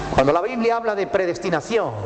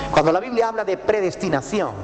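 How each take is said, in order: The two takes are said the same way.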